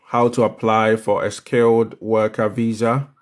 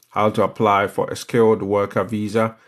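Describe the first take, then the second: No difference in how they are said.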